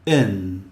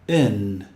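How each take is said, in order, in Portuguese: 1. A vogal soa parecida com um som 'eh'. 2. A vogal soa parecida com um som 'eh'.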